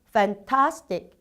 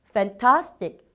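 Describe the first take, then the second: Both takes have the same delivery.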